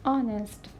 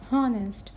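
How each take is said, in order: First: Honest with the H silent; correct silent-letter pronunciation. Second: Honest with a sounded H; wrong pronunciation demo. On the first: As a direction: start "honest" straight on the vowel. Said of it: "We will say". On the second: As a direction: breathe out an h to start "honest". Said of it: "Not honest". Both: Shown as a demonstration.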